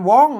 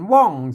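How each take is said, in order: First: The syllable has a high tone. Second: The syllable has a falling tone. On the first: "ได้เสียงตีมัน" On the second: "เสียงโทปกติ"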